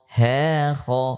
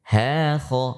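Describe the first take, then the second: No difference in how they are said.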